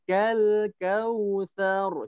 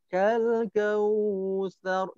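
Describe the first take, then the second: First: The vowel in kausar is kept short. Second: The vowel in kausar is drawn out long.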